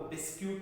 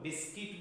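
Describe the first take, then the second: First: It ends with a South Indian 'kyoot' sound. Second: It ends with a short 'kit' sound.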